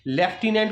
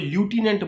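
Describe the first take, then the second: First: The word begins with a 'lef' sound. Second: The word begins with a 'loo' sound. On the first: The speaker calls it right. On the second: The speaker calls it wrong.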